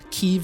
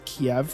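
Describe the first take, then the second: First: The name is said in its Ukrainian form. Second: The name is said in its Russian form. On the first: "Kiev is the Ukrainian pronunciation" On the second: "which is the Russian pronunciation"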